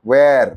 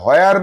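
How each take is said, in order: First: The word starts with a w sound. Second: The word starts with an h sound. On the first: The speaker calls it right. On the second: The speaker calls it wrong. "হয়ার নয়। হয়ার বলছে কে?"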